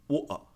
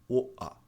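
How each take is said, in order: First: The t is dropped, leaving only vowels. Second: The same.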